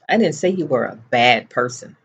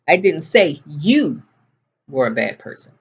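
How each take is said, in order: First: The stress falls on the word bad. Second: The stress falls on the word you. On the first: A different insult was said. "What I said was, you were a moron" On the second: It was said about someone else. "I said your brother was a bad person"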